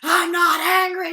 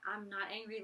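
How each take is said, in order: First: It is said in an angry, heated way. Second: It is said in a calm, relaxed way.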